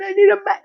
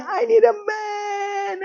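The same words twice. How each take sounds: First: High wailing sob at full volume; hammed-up desperate crying plea; mock crying. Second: High, slow, soft wailing sob; drawn-out fake weeping plea; mock crying. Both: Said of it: "And she's crying".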